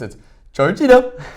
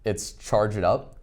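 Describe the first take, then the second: First: It is said in an imitated, put-on voice. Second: It is said in the speaker's natural voice.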